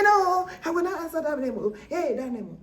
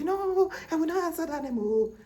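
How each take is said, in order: First: High, louder and fast defiant refusal; fiercer refusal. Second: High, loud defiant no; defiant refusal. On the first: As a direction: spit the refusal out quicker and louder. Same refusal, acted harder. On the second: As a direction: refuse the name loudly, like the stubborn elders. People refusing the name, acted. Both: Retold or imitated.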